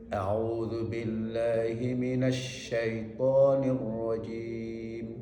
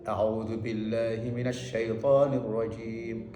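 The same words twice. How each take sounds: First: The sh sound flows on with a longer hiss. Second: The sh sound is released briefly without flowing. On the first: The speaker calls it right. "Kalau dialirkan" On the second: The speaker calls it wrong. "Kalau tidak dialirkan hanya dilepaskan saja"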